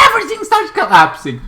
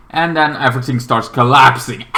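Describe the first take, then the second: First: Much higher, excited repeat of the line; dramatic repeat. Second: Said in the usual way. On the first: Real, not acted. Retelling the movie's ending to viewers, with a sudden high excited lift. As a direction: pitch it up high to sell the collapse.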